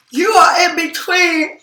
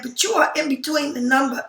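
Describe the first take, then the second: First: Words stretched by a yawn. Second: Said in the usual way. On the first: Real, not acted. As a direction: say it mid-yawn. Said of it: "I didn't mean to yawn like that". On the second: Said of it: "excuse me, I didn't mean to yawn".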